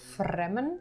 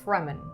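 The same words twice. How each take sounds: First: The R is a Dutch-style R sound. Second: The R is an English-style R sound.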